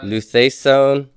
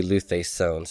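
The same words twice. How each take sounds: First: Luthesone with the stress on the wrong syllable; slow recitation of luthesone with the stress misplaced; misplaced accent. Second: Luthesone said again quietly with the accent fixed; lower, softer luthesone with the accent removed; corrected accent. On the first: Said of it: "that should be luthesone, sorry". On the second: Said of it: "Get rid of that, uh, accent there". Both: Shown as a demonstration.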